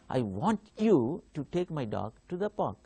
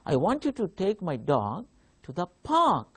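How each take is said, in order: First: The stress falls on the word you. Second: The stress falls on the word park. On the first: The listener is the one who should take the dog. "I give a stress on you" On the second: The park is where the dog should be taken. "if I give stress uh, to park, the word park"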